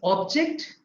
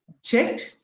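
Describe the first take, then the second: First: The stress is on the first syllable. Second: The stress is on the second syllable. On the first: It is a noun. "if it is a noun, it is on the in the beginning" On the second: It is a verb. "If it is a verb, ... stress falls on the second syllable"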